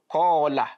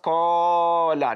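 First: The long vowel is held for two counts. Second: The long vowel is drawn out past two counts. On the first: The speaker calls it right. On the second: The speaker calls it wrong.

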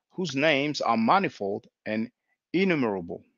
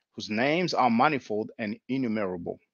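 The two takes are said the same way.

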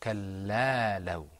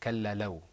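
First: The vowel after the L is held long. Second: The vowel after the L is short. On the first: The speaker calls it right. "That alif, we're pronouncing it for a longer time" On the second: The speaker calls it wrong. "instead of kallalaw"

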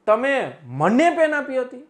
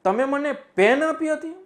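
First: The stress falls on મને. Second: The stress falls on પેન. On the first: It was given to the speaker rather than someone else. "હું ભાર આપી દઉં મને ઉપર" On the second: It was a pen rather than a pencil. "હવે પેન ઉપર ભાર આપી દઉં"

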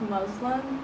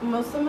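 First: The middle consonant sounds like a buzzing z. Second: The middle consonant is a soft hissing s. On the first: The speaker calls it wrong. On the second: The speaker calls it right.

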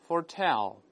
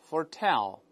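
The two takes are said the same way.

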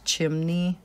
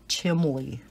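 First: The word has an N sound in the middle. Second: The word has an L sound in the middle. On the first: The speaker calls it right. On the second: The speaker calls it wrong.

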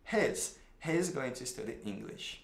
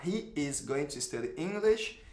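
First: He is is contracted into one syllable. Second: He is is said as two full words. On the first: The speaker calls it right. "você vai falar contraído" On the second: The speaker calls it wrong. "Ao invés de eu falar"

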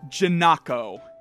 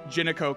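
First: The name is said with exaggerated, over-careful enunciation. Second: The name is said plainly and smoothly. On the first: The speaker calls it wrong. "That sounds like you are overly exaggerating the enunciation of her name" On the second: The speaker calls it right. "She is just known as Jinako Katagiri"

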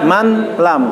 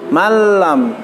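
First: The n is pronounced separately before the l. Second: The n disappears, merged into the l. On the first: The speaker calls it wrong. "jadi bacanya bukan man lam" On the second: The speaker calls it right. "suara masukkan huruf nunnya dihilangkan, jadi huruf ke dalam huruf lam"

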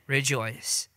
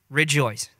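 First: It is said plainly, without extra emphasis. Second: It is said with strong, exclaimed emphasis.

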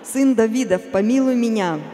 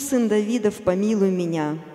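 First: The cry is at a louder level. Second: The cry is at a quieter level. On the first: "он громче стал" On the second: "кричит несколько раз"

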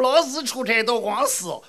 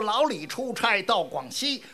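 First: It is said with heavy Hefei dental sounds. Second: It is said in standard Mandarin pronunciation. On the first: "一说就这味儿了啊" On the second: "你好比有这么一段话"

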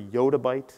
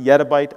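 First: The first syllable sounds like 'yacht'. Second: The first syllable sounds like 'yet'. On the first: "I prefer yottabyte" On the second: "as some people pronounce it yettabyte"

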